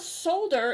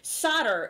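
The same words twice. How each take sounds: First: It is said the British way, with the L. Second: It is said the American way, without the L.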